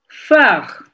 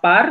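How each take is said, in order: First: The syllable begins with an f sound. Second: The syllable begins with a p sound. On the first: The speaker calls it right. "mais phare. P adalah F" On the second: The speaker calls it wrong. "on dit pas par"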